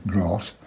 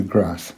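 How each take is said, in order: First: "grass" with a long ah, as in father; long-vowel grass. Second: "grass" with a short a, as in cat; short-vowel grass. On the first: Painter jokingly correcting his own word, "grass" with long ah. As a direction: correct it to "grass" with a drawn-out southern ah. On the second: Painter naming what lies below the castle, "grass" with short a. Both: Shown as a demonstration. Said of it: "sorry, grass".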